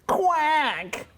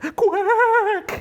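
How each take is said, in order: First: It is said at a lower pitch. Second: It is said at a higher pitch.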